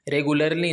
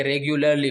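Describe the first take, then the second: First: रेगुलरली said "re-gu-lar-lee" without the y glide; रेगुलरली as "regular-lee", the way not to say it; wrong pronunciation. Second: रेगुलरली said "reg-yu-lar-lee" with a y glide; रेगुलरली with a clear "gyu", the taught way; correct pronunciation. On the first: (रेगुलरली गलत, बिना "य" के) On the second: (रेगुलरली सही, "रेग्युलरली") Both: Shown as a demonstration. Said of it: "नहीं बल्कि रेगुलरली पढ़ते हैं".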